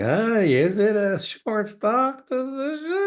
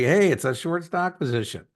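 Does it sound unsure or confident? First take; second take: unsure; confident. First: It sounds unsure, like a hesitant question. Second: It sounds confident, like a firm statement.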